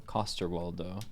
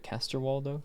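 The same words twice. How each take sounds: First: "Castorwaldo" with a as in "father" in the first syllable; alternative pronunciation. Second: "Castorwaldo" with a as in "cast" in the first syllable; questioning try at "Castorwaldo", first vowel like "cat"; pronunciation attempt. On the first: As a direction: lower second try at "Castorwaldo", first vowel "ah". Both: Shown as a demonstration. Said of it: "is it Castorwaldo?".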